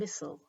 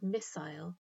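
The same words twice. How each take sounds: First: The ending is short, like in bottle. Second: The ending rhymes with mile. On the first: "the ending is much shorter, like the end of bottle" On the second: "end with a sound that rhymes with mile"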